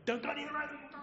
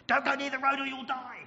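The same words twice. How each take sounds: First: High-pitched mock yell, held back in volume; imitated mother's yell. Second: High, loud frantic warning; mother's yell. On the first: Mother warning her toddler, high mock yell. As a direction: replay the warning high without the force. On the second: Acted. Mother yelling at her overactive toddler, urgent yell. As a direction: yell it in one high burst. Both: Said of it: "a mother who yells at her overactive toddler".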